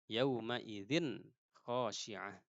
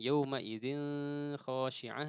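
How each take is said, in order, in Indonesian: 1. Bunyi n sebelum kh itu jelas. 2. Bunyi n sebelum kh itu samar. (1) "tanwin juga ya harus jelas" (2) "Jangan ... itu kurang tepat ya"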